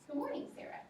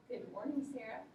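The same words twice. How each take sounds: First: Bright, friendly good morning; cheerful hello to a student; friendly greeting. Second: Flat, cold good morning; mock unfriendly hello to a student. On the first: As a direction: greet her warmly by name. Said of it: "I used a nice voice". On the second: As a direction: greet her without any warmth. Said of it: "I didn't use a friendly tone". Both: Shown as a demonstration.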